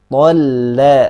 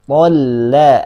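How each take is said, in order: The two takes are said the same way.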